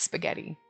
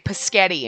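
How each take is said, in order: First: The word begins with an 'sp' cluster. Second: The word begins with a plain 'p' sound. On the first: The speaker calls it right. "no, no, it's spaghetti" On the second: The speaker calls it wrong. "sounds like you're saying paschetti"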